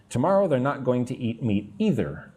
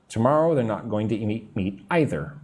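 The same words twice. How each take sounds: First: Either with a long EE first vowel; "ee-ther" pronunciation. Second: Either with an EYE first vowel; "eye-ther" pronunciation. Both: Shown as a demonstration. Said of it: "Both are okay".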